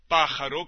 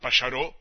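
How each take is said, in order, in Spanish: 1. El acento está en la primera sílaba. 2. El acento está en la última sílaba. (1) "la palabra esdrújula" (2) "se ha transformado en aguda"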